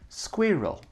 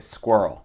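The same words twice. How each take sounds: First: It is said in a British accent. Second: It is said in a general American accent. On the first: "Tan France dit squirrel, squirrel, squirrel. Très anglais" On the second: "nous on dirait squirrel"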